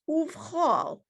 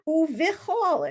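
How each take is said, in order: First: No vowel is sounded between v and ch. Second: A vowel is sounded between v and ch. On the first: The speaker calls it right. "It's uvchol" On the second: The speaker calls it wrong. "it's not uvichol"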